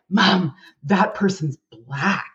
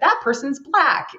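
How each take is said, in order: First: It is said in a judgmental, disapproving tone. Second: It is said loudly as a neutral observation. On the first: The difference is seen as something bad. The speaker calls it wrong. "He wasn't like" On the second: It is just a neutral observation. The speaker calls it right. "and very loud. ... there was no judgment in his voice"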